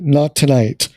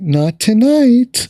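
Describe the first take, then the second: First: It is said in a curt, strict tone. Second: It is said in a playful, teasing tone. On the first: Stop asking about it. "like kind of curt and strict" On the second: Something may be coming later. "She said it in a kind of playful, hinty way"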